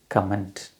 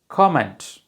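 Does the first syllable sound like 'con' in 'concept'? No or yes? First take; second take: no; yes. First: The first syllable does not sound like 'con'. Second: The first syllable sounds like 'con' in concept. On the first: The speaker calls it wrong. "Most of us mispronounce it as comment" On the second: The speaker calls it right. "This is comment. As concept and content"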